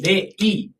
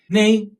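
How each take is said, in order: First: Each syllable is clipped and stamped out separately. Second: The syllables are tossed out lightly in one flow. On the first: The speaker calls it wrong. "한국말처럼 정확하게 네, 이 이렇게 찍지 마시고" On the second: The speaker calls it right. "던지듯이 네이"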